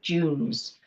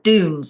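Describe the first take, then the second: First: It is said in a non-American accent. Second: It is said in an American accent.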